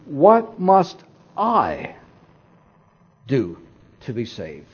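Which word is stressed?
I. The stress falls on the word I. Salvation depends on something the person personally does. The speaker calls it right. "let's change the emphasis to"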